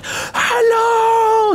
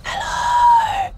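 First: High, loud drawn-out hello; demonstrated loud level. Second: Very high, squeaky drawn-out hello; demonstrated tiny whispering. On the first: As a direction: belt out a long, high hello. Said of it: "it was like ... sort of levels". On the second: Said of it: "I was, like, whispering like this". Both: Shown as a demonstration.

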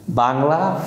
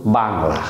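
First: Bangla with no stress on বা, tail lifting; flat-sound Bangla. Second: Bangla with pressure on বা, falling away; stress on first syllable. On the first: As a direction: say Bangla evenly, without pressing বা. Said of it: "flat সাউন্ডে Bangla". (Bangla শব্দে কোনো চাপ ছাড়া) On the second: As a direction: press the বা of Bangla, then drop. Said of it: "বার উপরে যদি আমি একটা স্ট্রেস". (বাংলা শব্দের বা-তে চাপ দিয়ে) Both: Shown as a demonstration.

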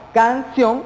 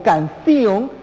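First: Said in the usual way. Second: "canción" as can-ci-on, three syllables; mispronounced hiatus. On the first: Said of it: "es una palabra con diptongo". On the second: Shown as a demonstration. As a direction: pull the i and o of "canción" apart. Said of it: "fonéticamente está mal dicho y mal expresado". ("canción" mal dicha, separando i y o: can-ci-on)

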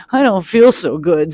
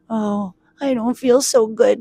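First: Queasy little complaint, lightly acted; a touch of woozy groaning; mild moan. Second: Higher, feeble storybook complaint; woozy little lament; unwell character voice. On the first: A narrator's reading. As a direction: moan feebly, storybook style. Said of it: "Sock moaned". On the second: Acted. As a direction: groan it like an unraveled mitten. Unraveled Mitten feels sick.

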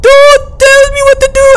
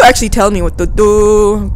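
First: Very high, loud held wail. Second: Said in the usual way. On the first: Pretend. Stuck player refusing help, shrill theatrical wail. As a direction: cry it out theatrically at the top of the voice.

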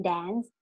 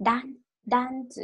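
First: Said in the usual way. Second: Dance said "dansu", with an a and a short final su; Japanese-style English. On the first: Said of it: "ก็คือ dance". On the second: Shown as a demonstration. Teacher models the word for learners, Japanese-style pronunciation. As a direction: break out dan-, then dance as katakana "dansu". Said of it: "ภาษาอังกฤษแบบญี่ปุ่น".

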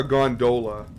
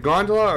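First: Gondola stressed on DO; second-syllable stress. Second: Gondola stressed on GON; first-syllable stress. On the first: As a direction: say gondola as gon-DOH-luh. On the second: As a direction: say gondola as GON-duh-luh. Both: Shown as a demonstration. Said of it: "do you pronounce it gondola or gondola".

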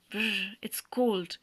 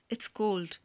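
First: Slow, shivering Brr, it's cold. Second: Said in the usual way. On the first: Acted. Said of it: "I'm trembling all over". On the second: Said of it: "greatly moved".

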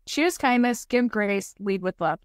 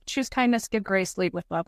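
First: "Choose" stretched out slowly, each phrase set apart; slow mantra. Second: Said in the usual way. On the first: Shown as a demonstration. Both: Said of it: "I literally tell myself this".

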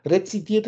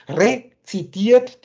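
First: Said in the usual way. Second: "rezitiert" drawn out slowly, the last syllable TIERT hit loud; Betonung auf TIERT. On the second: Shown as a demonstration. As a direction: split "rezitiert" slowly and lean hard on the final "tiert". („rezitiert“ gedehnt, laute Betonung auf „tiert“) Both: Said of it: "die Betonung liegt auf den Tier".

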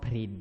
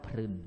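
First: พริน said with the vowel ิ, the right way; correct reading. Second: พรึน said with the vowel ึ, as it should not be; deliberately wrong พรึน; wrong reading. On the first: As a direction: read it พริน, with ริ. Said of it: "อ่านว่า". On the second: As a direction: read it พรึน, with รึ. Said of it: "ไม่ใช่อ่านว่า". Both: Shown as a demonstration.

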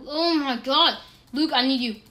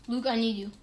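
First: Loud urgent plea; desperate call. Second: Said in the usual way. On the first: Real, not acted. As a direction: call your friend for help.

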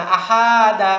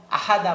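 First: "আহাদা" with a long drawn-out middle "হা"; wrongly stretched vowel. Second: Said in the usual way. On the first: Shown as a demonstration. Teacher warning against elongation, "আহাদা" with stretched "হা". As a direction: drag the "হা" of "আহাদা" out. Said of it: "এরকম টান দেওয়া যাবে না". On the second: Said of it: "আহাদা বলা যাবে না".

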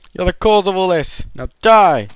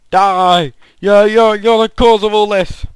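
First: Raised but less loud accusation; milder mock anger. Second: High, loud, hammed-up rage at a villager; mock furious shout. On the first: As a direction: repeat the blame with less force. Attacks villager again. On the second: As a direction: blame the villager at full volume. Attacks villager in anger.

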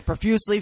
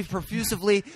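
First: Said in the usual way. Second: "profusively" said with an added "iv" syllable; extra syllable. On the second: Shown as a demonstration. Host comparing the two words, "profusively" with the extra syllable. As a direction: say "profusively" as pro-FYOO-siv-lee. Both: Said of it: "Profusively sounds better".

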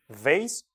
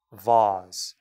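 First: Vase as "vayss"; vase rhyming with face; American pronunciation. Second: Vase as low "vahz"; vase with a long "ah"; British pronunciation. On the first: Teacher contrasting for students, American vase as "vayss". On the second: Teacher contrasting for students, British vase as "vahz". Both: Shown as a demonstration. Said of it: "완전 달라지죠".

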